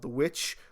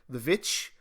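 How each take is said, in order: First: The word begins with a w sound. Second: The word begins with a v sound. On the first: The speaker calls it wrong. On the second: The speaker calls it right.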